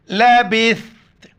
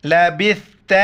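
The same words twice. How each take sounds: First: لبثت recited smoothly, tha with tongue out; recited in full. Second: لبثت ending on a sharp doubled ta, slight rise; pausal stop. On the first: Teacher recites لبثت for students, melodic. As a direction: intone لبثت as in the verse. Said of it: "سا کے وقت زبان باہر نکالنا ہے". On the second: Teacher shows stopping on لبثت, crisp final ta. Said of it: "صرف تا کا آخر میں sound". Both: Shown as a demonstration.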